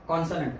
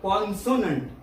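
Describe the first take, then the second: First: The middle vowel is dropped or reduced. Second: The middle syllable has a full 'o' vowel. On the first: The speaker calls it right. "तो कॉन्सोन असून तो आहे कॉन्सनंट" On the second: The speaker calls it wrong. "जर तुम्ही उच्चार करायला गेला तर तुम्ही म्हणाल कॉन्सोनंट"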